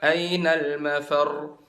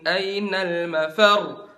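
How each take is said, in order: First: The final doubled letter is said without extra emphasis. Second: The voice is raised on the final doubled letter. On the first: The speaker calls it wrong. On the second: The speaker calls it right. "Kalian angkat suaranya"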